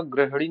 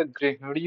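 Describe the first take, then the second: First: गृहिणी said 'gra-h-ni'; wrong middle vowel. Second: Said in the usual way. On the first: Shown as a demonstration. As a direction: say गृहिणी with 'a' in place of 'i'. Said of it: "नहीं होता". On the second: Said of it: "होता है".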